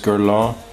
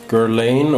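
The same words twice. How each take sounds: First: The name is said with a French-style pronunciation. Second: The name is said with an anglicized pronunciation. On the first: The speaker calls it right. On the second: The speaker calls it wrong.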